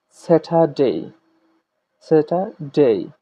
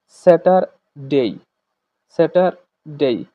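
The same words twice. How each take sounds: First: Slow British "স্যাটারডে" with the r left silent; British pronunciation. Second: Slow American "স্যাটারডে" with the r sounded; American pronunciation. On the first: Teacher models British day names for class, British pronunciation. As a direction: say "স্যাটারডে" the British way, r dropped, drawn out. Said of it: "British pronunciation, বলছে". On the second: Teacher contrasts it with British for class, American pronunciation. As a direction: say "স্যাটারডে" the American way, bringing in the r, drawn out. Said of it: "এবার আমরা American pronunciation দেখি".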